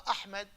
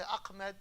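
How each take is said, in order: First: Said in the usual way. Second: "Ahmed" with a k-like sound for the ha; American mispronunciation. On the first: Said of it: "They don't know how to pronounce". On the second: Retold or imitated. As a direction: imitate Americans struggling with the h in "Ahmed". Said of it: "They say Ahmed".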